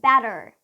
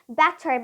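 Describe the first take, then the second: First: The middle t is a soft, d-like flap. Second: The middle t is a crisp, clear t. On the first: "If you want to sound more American, then you would use the flap T" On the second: "that's alright if you use the true T. If you say better"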